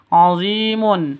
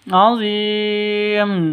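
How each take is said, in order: First: The word ends with a full 'mun' sound. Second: The word ends on a bare 'm' sound. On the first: The reading continues without stopping. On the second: The reader stops at this word.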